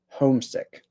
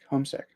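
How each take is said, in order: First: The stress is clearly on the first syllable. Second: The stress is weak and even on both syllables. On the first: Someone misses their home while away. "the stress is on the first syllable" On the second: Someone is at home because they are ill. "the stress is not very strong on either syllable"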